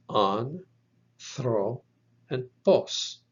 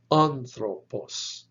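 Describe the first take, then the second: First: Anthropos broken into an, thro, pos with pauses; syllable by syllable. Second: Said in the usual way. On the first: Shown as a demonstration. Teacher showing a word's three syllables, syllable by syllable. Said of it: "it has three syllables". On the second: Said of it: "Look at the second example".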